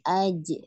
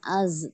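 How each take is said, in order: First: The syllable ends with a j sound. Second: The syllable ends with a z sound. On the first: The speaker calls it right. "tapi aj ya, jahar" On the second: The speaker calls it wrong. "Bukan az"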